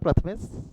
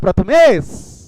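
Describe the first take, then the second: First: The name is called at normal volume. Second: The name is shouted very loudly.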